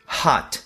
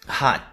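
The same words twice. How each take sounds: First: The final T is clearly released with air. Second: The final T is held without releasing air. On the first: "T pronunciado da maneira mais exagerada" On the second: "a forma mais comum do dia a dia"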